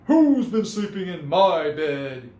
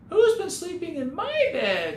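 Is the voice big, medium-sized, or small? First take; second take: big; small. First: It is said in a big, booming voice. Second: It is said in a tiny, small voice. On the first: "he boomed in his great big voice" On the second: "he cried in his wee little voice"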